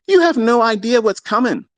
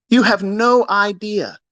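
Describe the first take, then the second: First: Said in the usual way. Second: Drawn out slowly, word by word; slowed repeat. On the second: Real, not acted. Repeating his warning to viewers, slowly. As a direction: let each word land slowly.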